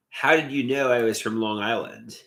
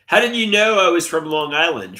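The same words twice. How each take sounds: First: Said in the usual way. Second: Louder, higher demanding question. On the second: Real, not acted. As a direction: call it out to chat. Asks chat twice, first louder.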